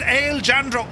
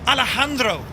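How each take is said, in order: First: The j sounds like an English j. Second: The j sounds like an h. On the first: "Or is it Ale Jandro?" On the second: "J is a H, right?"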